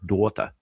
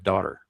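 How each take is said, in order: First: It is said with a Liverpool accent. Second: It is said with a general accent. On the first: "she lived in Liverpool for a time, so she says daughter" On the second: "instead of daughter"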